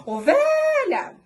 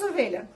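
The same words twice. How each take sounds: First: Very high, loud OVELHA with VE held; drawn-out calling shout on VE; calling out, stretched VE. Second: Said in the usual way. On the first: Shown as a demonstration. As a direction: shout "Ovelha" as a long summons. Calls the sheep in demonstrated way.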